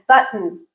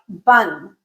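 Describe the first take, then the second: First: The middle sound is a short throat catch. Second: The middle sound is dropped with no throat catch. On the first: The speaker calls it right. "I'm omitting the T, but I'm adding something else in it" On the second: The speaker calls it wrong. "If I did that, the word button would sound like bun"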